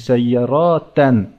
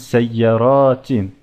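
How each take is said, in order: First: The word ends with an 'an' sound. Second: The word ends with an 'in' sound. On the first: The speaker calls it wrong. "не «сейяротен»" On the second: The speaker calls it right. "а именно «сейяротин»"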